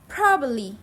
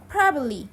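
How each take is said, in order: First: The second b sound is dropped. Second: The same.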